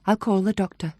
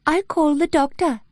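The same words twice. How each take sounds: First: Said in the usual way. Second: Much higher, uncanny copy of the other woman's voice, a hint of Welsh; eerie imitation of Bryony. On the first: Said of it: "said Claire's voice in a perfect imitation of Bryony's". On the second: A narrator's reading. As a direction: mimic her exactly, but wrong and eerie. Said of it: "a perfect imitation of Bryony's, with the slight hint of a Welsh accent".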